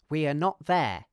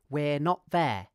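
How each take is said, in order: First: Every word is said in full, uncontracted. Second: 'We are' is contracted into one syllable. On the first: "I'll say each word, pronouncing R weakly" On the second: "I'll contract we are"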